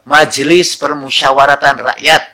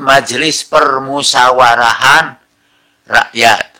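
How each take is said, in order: First: The middle word has a t sound. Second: The middle word has an h sound. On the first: This is the established form. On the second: This form is not used. "Tidak disebut"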